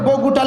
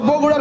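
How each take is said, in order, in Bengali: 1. মাঝের ব্যঞ্জনটি একটি t-ধ্বনি। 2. মাঝের ব্যঞ্জনটি একটি ফ্ল্যাপড r-ধ্বনি। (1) "ডসিন্নরের পরিবর্তে টয় না দিছে" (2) "ডসিন্নার পরিবর্তে"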